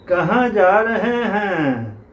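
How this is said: The accent is overdone in a mocking way. The character is being made fun of. The speaker calls it wrong. "मजाक उड़ाने वाला tone, वो caricature"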